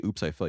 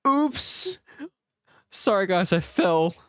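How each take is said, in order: First: Said in the usual way. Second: High squeaky oops of a fall; jokey high-pitched fall; mock oops. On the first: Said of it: "you don't even say". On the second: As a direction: play the clumsy faller. Mock falling into the river.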